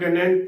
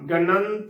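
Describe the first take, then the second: First: An 'i' vowel is said before the final t. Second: A nasal 'an' is said before the final t. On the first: The speaker calls it wrong. "ना कि गणत या गणित उच्चारण नहीं करना" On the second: The speaker calls it right. "गणंत उच्चारण करना है"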